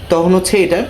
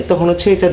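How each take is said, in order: Both takes have the same delivery.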